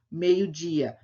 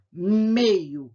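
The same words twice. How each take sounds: First: Said in the usual way. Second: "meio-dia" split in two, MEI loud and stretched, then DI drawn out; stress on MEI and DI. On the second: Shown as a demonstration. Teacher marking strong syllables for pupils, "meio-dia" broken up with MEI and DI stressed. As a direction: punch "MEI-o", pause, then "DI-a". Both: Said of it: "A sílaba mais forte é mei".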